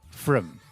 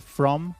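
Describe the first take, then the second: First: The word is said with a reduced neutral vowel. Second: The word is said with a full vowel. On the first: "the weak form, the vowel sound has changed into the neutral sound" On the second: "So from is the strong form"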